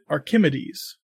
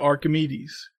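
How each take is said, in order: First: Archimedes is said an odd, unusual way. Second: Archimedes is said the familiar, usual way. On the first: Someone else said it this way. The speaker calls it wrong. "He pronounced it Archimedes" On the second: This is how the word is normally said. The speaker calls it right. "I say Archimedes"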